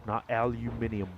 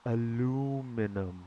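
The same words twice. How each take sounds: First: "aluminium" as al-yoo-MIN-ee-um; wrong version. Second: "aluminum" slow, a-LOO-mi-num; slow demo. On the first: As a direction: contrast with "aluminium" five syllables. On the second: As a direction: spell out "aluminum" slowly. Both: Shown as a demonstration.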